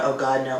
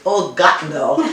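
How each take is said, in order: First: Said in the usual way. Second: Put-on German-accented father exclaiming "Oh, God, no."; father's German accent. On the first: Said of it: "it never came out". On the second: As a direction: mimic the German dad's exasperated groan. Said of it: "It was always".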